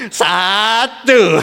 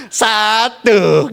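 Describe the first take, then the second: First: "Satu" said with a laugh. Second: Said in the usual way. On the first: Shown as a demonstration. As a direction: giggle through "Satu". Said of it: "Dilus-lus". ("Satu" sambil tertawa) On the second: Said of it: "ibu-ibu ngelus-ngelus terus bilang".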